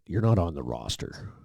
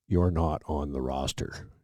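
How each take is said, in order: First: Said in the usual way. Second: Slow, spelled-out repeat. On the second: Retold or imitated. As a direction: spell it out slowly for him. Sergeant repeats the same line.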